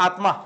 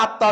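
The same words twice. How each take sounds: First: "আত্মা" with t and m both sounded, "atma"; Sanskrit pronunciation. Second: "আত্মা" with a doubled t, no m sound, as in Bengali; Bengali pronunciation. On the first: Teacher contrasting the Sanskrit form for students, "আত্মা" as "atma". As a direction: say "আত্মা" the Sanskrit way, t then m clearly. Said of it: "কিন্তু সংস্কৃতের ক্ষেত্রে আত্মা". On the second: Teacher showing students the Bengali way to say it, "আত্মা" as "atta". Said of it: "বাংলায় উচ্চারণ করলে আত্মা উচ্চারণ হবে". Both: Shown as a demonstration.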